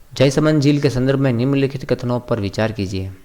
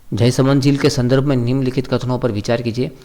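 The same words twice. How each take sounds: The two takes are said the same way.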